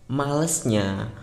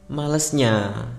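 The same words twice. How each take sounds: The two takes are said the same way.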